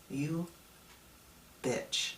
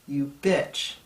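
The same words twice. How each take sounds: First: Quiet, breathy teasing jab, trailing to unvoiced; soft mock insult. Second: Loud mock insult, punched out; playful insult, loud. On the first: Speaker repeating his jab to his younger self, softly. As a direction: say it softly, almost under breath. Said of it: "I'd say". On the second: Speaker addressing his younger self, loud teasing jab. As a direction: call your younger self out loudly. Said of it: "I would say two words".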